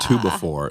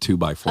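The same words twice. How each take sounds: First: It is said in the hypnotist's accent. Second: It is said in the speaker's normal accent.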